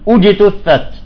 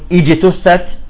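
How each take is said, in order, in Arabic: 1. الكلمة تبدأ بحركة الضمة. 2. الكلمة تبدأ بحركة الكسرة. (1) "ولا نقول أجتثت" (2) "هل نقول إجتثت بالكسر يعني"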